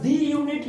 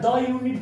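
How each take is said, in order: First: The word 'the' is said with a long 'ee'. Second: The word 'the' is said with a short 'uh'. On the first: The speaker calls it wrong. "यहाँ पर दी unit नहीं" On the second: The speaker calls it right. "द unit पढ़ा जाएगा"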